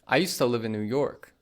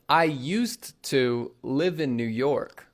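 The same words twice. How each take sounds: First: 'Used to' is blended into one word, 'usta'. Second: 'Used to' is said fully as two words. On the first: "used to becomes usta" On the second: "we won't say"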